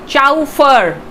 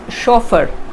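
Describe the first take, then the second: First: It is pronounced the way it is spelled. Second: It is pronounced the usual accepted way. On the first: The speaker calls it wrong. "as the spelling suggests" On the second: The speaker calls it right. "but the pronunciation is chauffeur"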